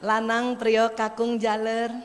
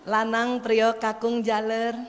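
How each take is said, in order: First: The names are called softly and gently. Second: The names are called softly and gently.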